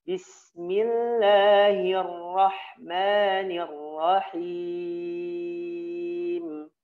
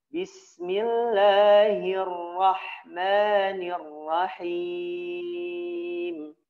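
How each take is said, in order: The two takes are said the same way.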